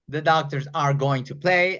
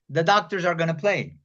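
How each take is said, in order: First: Going to is said in full, unreduced. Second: Going to is reduced to a short gonna.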